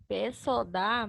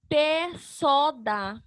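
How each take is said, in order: First: Joined-up, lower test reading; syllables run together. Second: Very slow, each syllable held apart; drawn-out separate syllables. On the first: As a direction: lower and quicker, blending the syllables. Same syllables tested as a word. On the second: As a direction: sound out PÉ, SÓ, DÁ one by one. Sounding out syllables, then blending them. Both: Shown as a demonstration.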